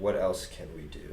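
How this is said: It is said calmly and steadily. The speaker is calmly considering other options. "listen to the steadiness"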